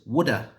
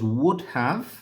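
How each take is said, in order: First: The 'have' becomes a weak 'uh' sound. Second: Both words are said fully and separately.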